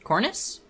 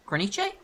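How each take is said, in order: First: "Cornice?" said the English way, KOR-niss; "Cornice?" as KOR-niss with a questioning rise; English pronunciation. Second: "Cornice?" said the Italian way, kor-NEE-chay; "Cornice?" as kor-nee-chay with a questioning rise; Italian pronunciation. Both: Shown as a demonstration. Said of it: "I think it might be cornice".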